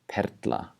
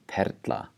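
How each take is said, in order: No difference in how they are said.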